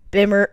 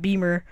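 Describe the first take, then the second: First: The first vowel is a short 'ih' sound. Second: The first vowel is a long 'ee' sound. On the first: The speaker calls it wrong. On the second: The speaker calls it right.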